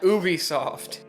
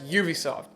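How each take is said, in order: First: The first part sounds unlike the start of 'ubiquitous'. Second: The first part sounds like the start of 'ubiquitous'. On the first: The speaker calls it wrong. "not Ubisoft" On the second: The speaker calls it right. "named it Ubisoft or Ubiquitous Software, so it's pronounced Ubisoft"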